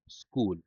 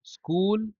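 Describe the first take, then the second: First: school low and soft, falling at the end; falling tune. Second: school pitched high, rising at the end; rising tune. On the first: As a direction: drop school down like a closing answer. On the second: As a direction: lift school upward like an open question. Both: Shown as a demonstration. Word said twice, tune contrasted.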